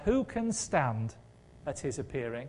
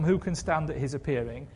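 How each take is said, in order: First: Slow, weighty "Who can stand", fading softer on "at his appearing"; slow dramatic quote. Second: Said in the usual way. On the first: Shown as a demonstration. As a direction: lean on "Who", then let the line sink quietly. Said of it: "Do you remember two weeks ago we said from Handel's Messiah". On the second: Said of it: "Handel has moved us on from".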